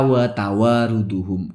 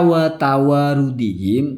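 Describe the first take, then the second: First: The word ends with u vowels, 'duhum'. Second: The word ends with i vowels, 'dihim'. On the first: It is not joined to the preceding noun. The speaker calls it wrong. "kok dibaca wa tawaruduhum itu salah" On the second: It is joined to the preceding noun by 'and'. The speaker calls it right. "ini mestinya dibaca wa tawarudihim"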